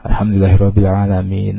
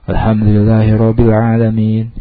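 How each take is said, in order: First: The phrase is recited quickly with no pause. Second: The phrase is recited slowly, then a pause. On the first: The listener must wait and recite after the whole chapter. "kalau imamnya agak cepat" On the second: The listener has time to recite each verse after it. "kalau imamnya lambat"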